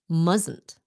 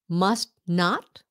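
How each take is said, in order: First: The words are run together as one contraction. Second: The two words are said in full. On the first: "becomes mustn't" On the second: "Must not becomes"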